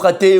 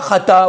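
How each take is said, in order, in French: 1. Il se termine par la voyelle 'e'. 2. Il se termine par la voyelle 'a'. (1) "ou chaté" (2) "On ne dit pas chata"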